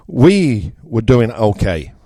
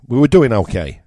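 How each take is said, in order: First: Slow, weighed delivery of "We were doing okay"; slow and deliberate. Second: "doing" in "We were doing okay" pushed up, then a falling end; stress on doing. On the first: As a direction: lay out "We were doing okay" slowly, word by word. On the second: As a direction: lean into "doing" at normal speed. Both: Shown as a demonstration.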